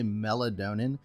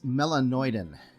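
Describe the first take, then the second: First: It sounds like melatonin, with an extra n. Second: It sounds like melanoidin, ending in -oidin. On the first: The speaker calls it wrong. "I always pronounce that particular malt wrong. I always say Melatonin" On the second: The speaker calls it right. "but it's melanoidin"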